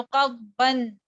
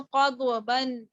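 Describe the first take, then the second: First: कब्बन slowly, the heavy dad held with no echo vowel. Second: कब्बन with a D and echo vowel before the B; wrongly bounced dad. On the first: Teacher modelling the held letter, कब्बन without a bounce. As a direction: press and hold the first closure in कब्बन, then release into ban. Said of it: "जमा दिया अपनी आवाज को". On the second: Teacher showing what she did not read, कब्बन with qalqalah on dad. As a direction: break कब्बन into qad-uh-ban. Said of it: "ऐसे नहीं पढ़ा". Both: Shown as a demonstration.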